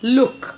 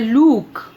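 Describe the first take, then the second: First: The vowel is short. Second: The vowel is long. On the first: The speaker calls it right. "क्योंकि इसमें short vowel sound है" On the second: The speaker calls it wrong. "वो लुक को कई बार बोलते हैं लूक"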